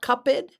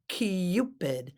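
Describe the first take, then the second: First: The first vowel is said without a 'y' glide. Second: The first vowel is said with a 'y' glide. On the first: The speaker calls it wrong. "Not Cupid" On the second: The speaker calls it right. "but Cupid. It's got the U"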